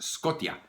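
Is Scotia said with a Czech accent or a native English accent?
Czech accent. It is said with a Czech accent. The speaker calls it wrong. "it's not pronounced Scotia"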